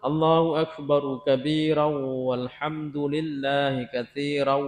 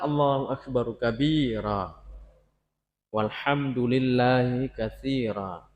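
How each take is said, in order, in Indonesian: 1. Kalimatnya terus tanpa berhenti setelah kabira. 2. Ada berhenti setelah kata kabira. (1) "Kalau kita wasal" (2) "Kalau itu kalau kita wakaf"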